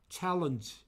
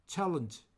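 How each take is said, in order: No difference in how they are said.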